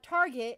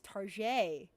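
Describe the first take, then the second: First: The word is said with ordinary English pronunciation. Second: The word is said with mock French pronunciation. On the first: The speaker calls it wrong. "it's not Target" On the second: The speaker calls it right. "It's like how"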